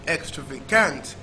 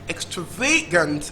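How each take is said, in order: First: The stress is on the fourth syllable. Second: The stress is on the third syllable. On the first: "And last syllable" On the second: "Third syllable"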